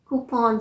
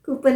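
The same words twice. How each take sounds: First: कूपन as "koo-PON"; long open vowel ending कूपन; correct pronunciation. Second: कूपन with short "pun"; weak final vowel in कूपन; wrong pronunciation. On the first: Teacher corrects the habit, कूपन as koo-pon. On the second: Teacher rejects the habit, कूपन as koo-pun. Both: Shown as a demonstration. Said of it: "कूपन नहीं".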